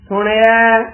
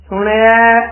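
The two takes are said the same way.

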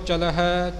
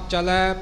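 First: The word ends with an audible h sound. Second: The word ends in a plain vowel, no h. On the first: The speaker calls it right. "ਦੋਹਾਂ ਦਾ ਹੀ ਉਚਾਰਨ ਕਰਨਾ ਹੈ" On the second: The speaker calls it wrong. "ਇਉਂ ਪਾਠ ਨਹੀਂ ਕਰਨਾ"

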